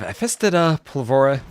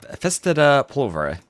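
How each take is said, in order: First: The second syllable is stressed heavily. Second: The second syllable is stressed lightly. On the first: The speaker calls it wrong. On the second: The speaker calls it right.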